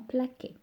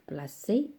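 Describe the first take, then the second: First: The middle consonant is a k sound. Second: The middle consonant is an s sound. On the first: The speaker calls it wrong. "et non plaqué" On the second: The speaker calls it right. "j'ai le son s"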